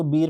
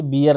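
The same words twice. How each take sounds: First: बीयर said as one long-vowelled "beer"; correct beer pronunciation. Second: बियर said as two syllables, "bi-yar"; short "i" then "yar" in बियर; wrong beer pronunciation. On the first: Teacher correcting students' reading, बीयर with a long "ee". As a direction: hold the long "ee" in बीयर, running into r. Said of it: "इसको बीयर पढ़ते हैं भाई". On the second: Teacher showing the common mistake, बियर broken into bi-yar. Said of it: "गलत तरीके से इसका उच्चारण करते हैं". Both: Shown as a demonstration.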